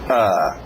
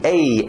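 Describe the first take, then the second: First: The vowel is a short, relaxed 'uh' sound. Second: The vowel is a longer, tenser 'ay' sound. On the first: The speaker calls it right. "o capitão do time, é só uma letrinha. A. Exatamente" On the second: The speaker calls it wrong. "do que E, E, E, E. Isso vai forçar muito"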